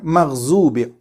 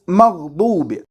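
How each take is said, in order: First: The middle consonant is a plain z sound. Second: The middle consonant is a heavy d-like sound. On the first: The speaker calls it wrong. "and not maghzub" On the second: The speaker calls it right. "It is maghdub"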